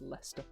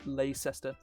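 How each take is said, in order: First: The middle 'cest' syllable is left out. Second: The middle 'cest' syllable is fully pronounced. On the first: The speaker calls it right. "It's just Leicester" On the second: The speaker calls it wrong. "not um"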